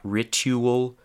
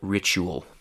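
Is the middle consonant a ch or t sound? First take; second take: t; ch. First: The middle consonant is a plain t sound. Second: The middle consonant is a ch sound. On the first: The speaker calls it wrong. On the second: The speaker calls it right.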